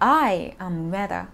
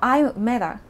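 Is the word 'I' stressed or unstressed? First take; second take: stressed; unstressed. First: The word I is said strongly. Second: The word I is not emphasized.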